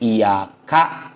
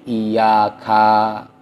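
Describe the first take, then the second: First: The word ends with a glottal stop. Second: The word ends with a long vowel. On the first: "muncul hamzah sukun" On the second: "hamzah mad"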